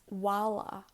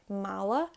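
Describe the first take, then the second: First: The word begins with a w sound. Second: The word begins with an m sound. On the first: "with a H, it's wala" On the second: "Word bag, mala"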